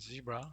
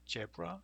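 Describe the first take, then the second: First: The word begins with a z sound. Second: The word begins with a j sound. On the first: "same thing with zebra" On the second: "in Korean we say zebra"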